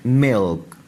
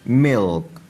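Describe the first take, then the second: No difference in how they are said.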